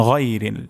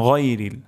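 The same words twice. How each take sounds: No difference in how they are said.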